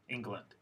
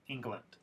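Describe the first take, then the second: First: The second syllable has a reduced schwa vowel. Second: The second syllable has a reduced schwa vowel.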